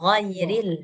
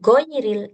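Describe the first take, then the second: First: It starts with a throaty gh sound. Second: It starts with a hard g sound. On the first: The speaker calls it right. "Mirip G tapi bukan G dia" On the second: The speaker calls it wrong. "jangan goiril"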